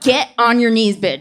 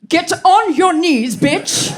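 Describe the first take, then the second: First: It is delivered in a flat, bored way. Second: It is delivered in a grand, theatrical way. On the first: "A little less D M V" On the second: "A little less Shakespearean"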